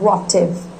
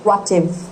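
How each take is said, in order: No difference in how they are said.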